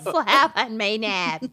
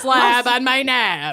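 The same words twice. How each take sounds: First: Slow echo in Minnesota drawl; Minnesotan accent. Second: Slow mock Minnesotan drawl; Minnesotan accent. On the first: Pretend. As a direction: copy the Minnesota vowels. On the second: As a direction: ham up the Minnesota vowels. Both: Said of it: "worst Minnesotan accents".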